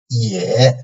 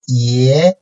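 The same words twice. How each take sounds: First: The pitch dips low, then rises slightly. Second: The pitch rises from mid to high.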